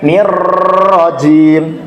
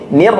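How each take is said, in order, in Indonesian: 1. R-nya bergetar lama. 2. R hanya bergetar sebentar di awal. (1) "bukan keseluruhannya. Jadi bukan nirrojim" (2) "bergetarnya itu hanya di awalnya saja"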